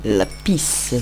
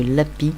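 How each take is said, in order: First: "Lapis" with a hissed final s; final s pronounced. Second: "lapis" without the final s; silent final s. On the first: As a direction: say "Lapis" as la-peece. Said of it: "Plutôt parce que lapis". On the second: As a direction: say "lapis" as la-pee. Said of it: "Ouais, ça se dit". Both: Shown as a demonstration.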